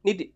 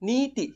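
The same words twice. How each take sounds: First: The first vowel is short, like the second. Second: The first vowel is held noticeably longer. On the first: The speaker calls it wrong. "আমি পঢ়োঁতে তেনেকৈ পঢ়িছোঁ নীতি বুলি পঢ়িছোঁ" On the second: The speaker calls it right. "নি বুলি কওঁতে আমি ই উচ্চাৰণটো অকণ দীৰ্ঘ কৰিব লাগিব"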